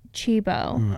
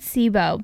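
First: The word begins with a 'ch' sound. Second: The word begins with an 's' sound. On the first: The speaker calls it right. "but I'm pretty sure it's Chibo" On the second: The speaker calls it wrong. "I said Sibo"

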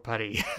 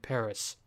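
First: Paris is said with a French pronunciation. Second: Paris is said with an English pronunciation.

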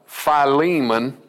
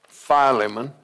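First: The name is said with a long E sound. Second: The name is said without a long E sound. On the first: "Put the long E in there" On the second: "I call it Philemon"

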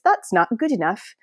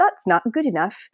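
First: It is said in a put-on British accent. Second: It is said in a put-on British accent.

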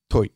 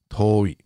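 First: The o vowel is short. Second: The o vowel is long. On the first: The speaker calls it wrong. "It can never be toi" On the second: The speaker calls it right. "It's toi"

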